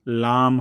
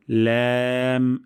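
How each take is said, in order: First: লাম with broad open aa; wrong lam. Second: Long ল্যাম with fronted ae; thin lam. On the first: Teacher showing the mistake, broad-vowel লাম. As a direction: say লাম broad, not fronted. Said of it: "লাম হবে না". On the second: Teacher introducing the letter, long thin ল্যাম. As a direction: hold ল্যাম light and even. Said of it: "এটিও পাতলা সাউন্ডে". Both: Shown as a demonstration.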